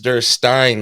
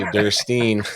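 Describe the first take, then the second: First: The last syllable rhymes with Frankenstein. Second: The last syllable does not rhyme with Frankenstein. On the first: The speaker calls it right. "It is Durstein like Frankenstein" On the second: The speaker calls it wrong. "but I always say Durstein"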